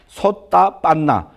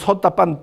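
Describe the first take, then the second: First: The word ends with a final vowel sound. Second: The word ends without the final vowel sound.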